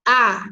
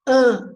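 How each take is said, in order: First: "A" as an open oral ah, loud; oral vowel. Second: "an" sent through the nose, held long and loud; nasal vowel. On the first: Teacher contrasting oral and nasal, loud open oral "A". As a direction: let "A" out through the mouth. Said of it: "Oral é quando o ar sai". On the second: Teacher contrasting oral and nasal, long nasal "an". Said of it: "nasal é quando sai pelo nariz". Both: Shown as a demonstration.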